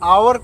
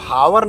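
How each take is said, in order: First: The word starts directly with a vowel. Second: The word starts with an h sound. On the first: The speaker calls it right. "हम इसको आवर कहते हैं" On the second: The speaker calls it wrong. "हावर न कह के"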